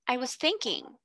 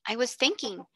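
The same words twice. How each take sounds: First: Calm, dignified answer with a falling close; grand and polite. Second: Said in the usual way. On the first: A narrator's reading. Pupil answering the headmistress, grand and polite. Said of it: "she answered grandly and politely". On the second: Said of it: "she answered".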